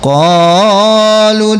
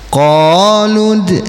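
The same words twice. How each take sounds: First: The long vowel is stretched too long. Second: The long vowel lasts two beats. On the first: The speaker calls it wrong. "jangan qalud nah, kepanjangan" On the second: The speaker calls it right. "mad tabi'inya satu alif dua harokat"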